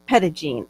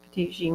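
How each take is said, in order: First: The first part sounds like 'petty', run into 'gene'. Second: The first part sounds like 'pe-teet', two clear syllables. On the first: The speaker calls it right. "it's pronounced uh, Pettigene" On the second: The speaker calls it wrong. "Am I saying that right?"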